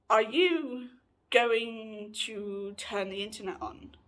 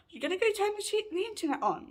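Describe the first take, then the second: First: Slow, drawn-out question; slow retold request. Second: Quick, high mock nagging; high-pitched mimicked demand. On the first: Housemate asks about the internet after power cut, slowly. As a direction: ask it slowly, stretching the words. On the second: Housemate repeats her internet demand, high and quick. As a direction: mimic her in a much higher voice.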